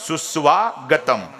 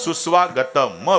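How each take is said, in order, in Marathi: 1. शब्द शुद्ध म् ने संपतो. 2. शब्द स्वर असलेल्या म ने संपतो. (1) "शेवटच्या म मधला स्वर काढला गेला म्हणून अलगद उच्चार" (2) "त्यात जर स्वर टाकला तर"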